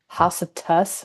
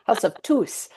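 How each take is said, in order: First: The last word does not rhyme with goose. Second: The last word rhymes with goose. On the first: The speaker calls it wrong. "They're like" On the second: The speaker calls it right. "Rhymes with goose"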